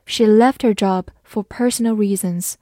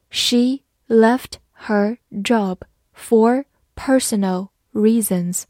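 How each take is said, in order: First: Said in the usual way. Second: Very slow, every word clearly separated; slow reading. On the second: Shown as a demonstration. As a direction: model it slowly for students to repeat. (慢速跟读示范) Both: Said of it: "好，慢慢来读".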